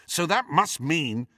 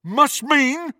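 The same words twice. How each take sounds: First: A touch of impatience; mildly exasperated reasoning; ill-disguised impatience. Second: High, loud, scornful question; ferocious echo. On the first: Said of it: "with ill-disguised impatience". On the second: Crabbe turns on Malfoy, ferociously. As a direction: throw the words back angrily. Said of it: "Crabbe turned on Malfoy with undisguised ferocity". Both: A narrator's reading.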